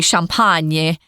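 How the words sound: The word is pronounced with a French pronunciation. "or as they say"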